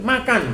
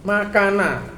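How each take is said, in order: First: The word ends on a bare consonant sound. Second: The word ends with an extra vowel sound.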